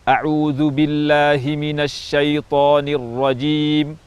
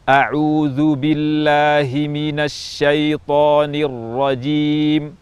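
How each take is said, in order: First: It is recited at a fast pace. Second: It is recited at a medium pace.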